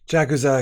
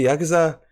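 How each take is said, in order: First: "Jakuza" with an opening English J; hard J pronunciation. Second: "Yakuza" with an opening Y sound; soft J pronunciation. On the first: Streamer trying the artist's name another way, hard J. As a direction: start "Jakuza" as in jack. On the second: Streamer unsure of the artist's name, soft J as Y. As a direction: start "Yakuza" on Y, not J. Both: Shown as a demonstration. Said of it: "I always do soft J's".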